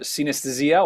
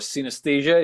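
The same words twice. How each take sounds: First: The name is said with non-English pronunciation. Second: The name is said with English pronunciation.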